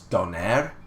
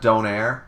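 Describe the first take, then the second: First: The name ends with an extra vowel sound. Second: The name ends with a plain 'air' sound. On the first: This is a last name. The speaker calls it right. "there's an E on the end" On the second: This is the name of a food. The speaker calls it wrong. "it's not Donaire"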